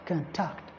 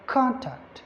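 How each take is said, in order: First: The stress is on the second syllable. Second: The stress is on the first syllable. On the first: It is used as a verb. "But if it is a verb" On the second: It is used as a noun. "If it is a noun, ... because the primary stress is on the first syllable"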